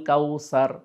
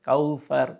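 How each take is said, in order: First: The middle consonant is a plain hissing s sound. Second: The middle consonant is a soft th sound. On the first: The speaker calls it wrong. "আমরা অনেক সময় বলি আল কাউসার" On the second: The speaker calls it right. "এইভাবে সঠিকভাবে বলতে হবে"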